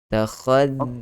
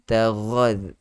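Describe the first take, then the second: First: The middle consonant is a voiceless kh sound. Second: The middle consonant is a voiced gh sound. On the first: The speaker calls it right. "bezakan sebutan kha dengan ra" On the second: The speaker calls it wrong. "jaga-jaga jangan tertukar"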